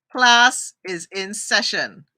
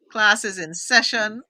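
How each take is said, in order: First: Drawn out and louder, stressing class; slow emphatic announcement. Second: Said in the usual way. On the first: Shown as a demonstration. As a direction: announce it slowly like a teacher.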